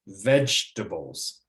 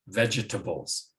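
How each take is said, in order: First: The second syllable is dropped. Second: All four syllables are pronounced.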